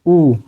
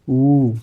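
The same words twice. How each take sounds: First: ऊ said short; short vowel. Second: ऊ held longer; long vowel. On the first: Teacher takes another example, short one-beat ऊ. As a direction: give ऊ just one quick beat. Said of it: "इसमें कम समय लग रहा है". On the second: Teacher contrasts the pair, long drawn-out ऊ. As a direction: stretch ऊ out to two beats. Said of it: "इसमें ज़्यादा समय लग रहा है". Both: Shown as a demonstration.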